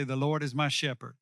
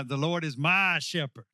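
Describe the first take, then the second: First: Said in the usual way. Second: "my" punched and stretched; stress on "my". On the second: Shown as a demonstration. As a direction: put the emphasis firmly on "my". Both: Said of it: "put the emphasis on my".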